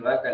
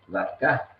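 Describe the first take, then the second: First: Said in the usual way. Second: Vacá with the stress on the last syllable, ca; final-stress vacá. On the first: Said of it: "en vez de decir vaca le dijo vacá". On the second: Shown as a demonstration. Explaining the Guaraní loanword to the interviewer, final stress on vacá. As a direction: say vacá as a Guaraní word, accent at the end. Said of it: "le dijo vacá".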